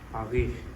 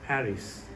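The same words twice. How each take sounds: First: It is said with a French accent. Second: It is said with an English accent. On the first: "if it was from a French speaker, they would pronounce it as" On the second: "for English speaker, it would say"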